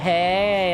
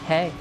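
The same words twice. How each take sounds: First: The word is long and drawn out. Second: The word is fairly short.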